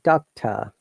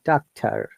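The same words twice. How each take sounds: First: The final R is silent, British style. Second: The final R is sounded, American style. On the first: "because it's a British accent, so R is silent" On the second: "in American accent, it should be pronounced doctor"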